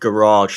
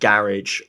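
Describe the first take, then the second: First: It is said in an American accent. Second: It is said in a British accent.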